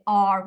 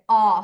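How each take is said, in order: First: The R sound is clearly pronounced. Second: The R sound is dropped, leaving an open vowel. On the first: The speaker calls it wrong. "We don't say R" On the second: The speaker calls it right. "we say ah"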